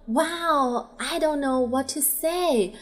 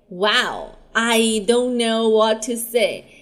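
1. 听起来很感激、开心，还很兴奋。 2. 听起来很失望，还有点无话可说。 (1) "一个是表达感激高兴兴奋" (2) "一个是表达失望无语speechless"

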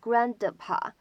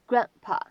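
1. d音完全爆破。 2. d音不爆破，失去爆破。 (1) "你不用把它再读成grandpa" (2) "你直接读成grandpa 就可以了。所以这是一个非常典型的失去爆破的现象。"

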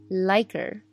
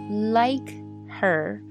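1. h音省略，连读成一个词。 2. “her”中的h音要完整读出来。

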